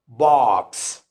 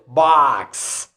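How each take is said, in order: First: The vowel is said with rounded lips. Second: The vowel is said with unrounded lips. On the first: "in the British accent ... our lips are rounded" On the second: "the O sound in some words in the American accent are not rounded"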